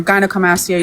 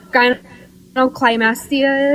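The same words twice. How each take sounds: First: Gynecomastia said as "guy-no-koh-mastia"; Gynecomastia, the "koh" clear in the middle; correct pronunciation. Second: Gynecomastia said as "guy-no-klai-mastia"; mispronounced. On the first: Shown as a demonstration. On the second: Real, not acted. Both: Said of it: "you're pronouncing it wrong".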